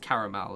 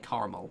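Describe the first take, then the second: First: It is said with a British-style pronunciation. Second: It is said with an American-style pronunciation. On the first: "everyone else says caramel" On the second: "Americans say caramel"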